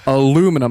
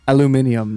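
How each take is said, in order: First: The word has no extra syllable before the end. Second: The word has an extra syllable before the end. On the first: "That's how it's spelled" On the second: "how the British also say"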